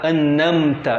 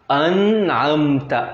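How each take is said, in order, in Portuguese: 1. As sílabas se juntam sem uma divisão clara. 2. A palavra se divide claramente após a primeira sílaba. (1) "Vou falar errado" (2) "Duas partes"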